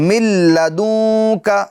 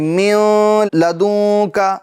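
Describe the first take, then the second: First: The N merges into a doubled L without nasality. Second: A nasal sound is heard before the L. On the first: The speaker calls it right. "बगैर गुन्ना के साथ... नून की आवाज नहीं आएगी" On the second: The speaker calls it wrong. "ऐसा नहीं करेंगे, गुन्ना नहीं होगा"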